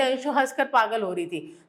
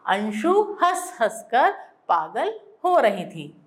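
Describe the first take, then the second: First: Said in the usual way. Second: हंस हंस given its own weight as a doubled pair; stress on हंस हंस. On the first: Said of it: "तो कोई मजा आता क्या". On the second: Shown as a demonstration. Teacher showing the better doubled-word sentence, emphatic. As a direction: let हंस हंस कर carry the emphasis. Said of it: "तो हमने क्या कहा".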